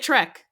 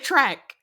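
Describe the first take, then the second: First: The vowel sounds like the e in bed. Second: The vowel sounds like the a in cat. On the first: The speaker calls it right. "I don't say Trek" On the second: The speaker calls it wrong. "I say track"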